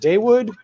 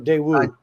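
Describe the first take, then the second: First: The final D sound is clearly pronounced. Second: The final D sound is dropped entirely. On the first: The speaker calls it right. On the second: The speaker calls it wrong.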